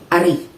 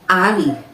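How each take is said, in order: First: The stress is on the second syllable. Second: The stress is on the first syllable. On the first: It means no. "stressed on the second syllable" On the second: It means king. "stressed on the first syllable"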